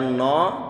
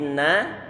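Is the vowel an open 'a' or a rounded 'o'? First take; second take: rounded o; open a. First: The vowel is rounded, like 'o'. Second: The vowel is an open 'a'. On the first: The speaker calls it wrong. "nggak boleh dibaca no" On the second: The speaker calls it right. "tapi na dengan dibuka mulut"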